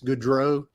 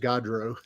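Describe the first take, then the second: First: The surname is said the Canadian way. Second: The surname is said the Texan way. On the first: "if you probably go to Canada, it's Goudreau" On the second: "the Texas pronunciation is Gaudreau"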